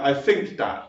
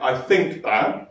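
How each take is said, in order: First: It is said in a casual, relaxed style. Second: It is said in a careful, formal style.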